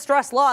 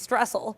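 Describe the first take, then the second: First: The second syllable is a full 'law'. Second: The second syllable is a short 'el'. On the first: The speaker calls it wrong. "instead of Stress Law" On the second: The speaker calls it right. "it's going to be Stressel um, because there's two L's"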